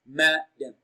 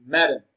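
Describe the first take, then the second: First: Madam split as "ma", pause, "dam"; broken into syllables. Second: Madam as one quick word, loud on "ma"; stress on MA. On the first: Teacher showing learners the answer, syllable by syllable. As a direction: separate the two syllables of madam, "ma" first and stressed. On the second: Teacher repeating the answer after splitting it, stress on MA. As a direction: say madam whole, punching "ma". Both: Shown as a demonstration. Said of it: "Ma is pronounced louder and longer".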